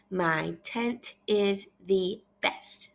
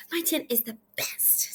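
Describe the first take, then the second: First: Half-speed, every word separate; measured teacher reading; slow read-aloud. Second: Higher, quicker excited reading. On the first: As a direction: model it slowly for repeating. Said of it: "I want you to repeat after me". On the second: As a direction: read it with feeling, like an exclamation. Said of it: "she's really excited in this story". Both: Shown as a demonstration.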